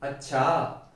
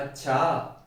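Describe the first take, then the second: First: It sounds angry. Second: The same.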